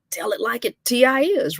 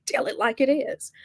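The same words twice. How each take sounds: First: "is" broken into "T-I-is", high-pitched; playful split-up "is". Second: Said in the usual way. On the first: Shown as a demonstration. Praising straight-talking coaches, "is" playfully split as "T-I-is". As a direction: stretch "is" out as "T-I-is". Playful drawn-out take, then repeated normally.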